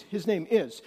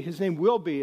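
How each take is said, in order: First: Emphatic "is", stated as settled fact; stress on IS. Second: Said in the usual way. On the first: Shown as a demonstration. Preacher corrects "will be" for the congregation, emphatic IS. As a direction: land firmly on "is". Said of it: "this is emphatic". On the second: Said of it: "he's not even saying".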